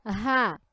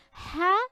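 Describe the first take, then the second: First: Open, easy হা, falling; light H. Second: High rising হা with throaty friction; heavy throat H. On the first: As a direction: breathe হা out lightly, pitch dropping. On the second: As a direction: push হা through a tight throat, pitch climbing. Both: Shown as a demonstration. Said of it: "দুইটা একসঙ্গে উচ্চারণ করতে যেয়ে".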